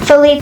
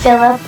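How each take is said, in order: First: The name is said with three syllables, fe-LEE-pe. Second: The name sounds like the English name Philip. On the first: The speaker calls it right. "I think that's how you pronounce it" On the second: The speaker calls it wrong. "I think I've been pronouncing it wrong"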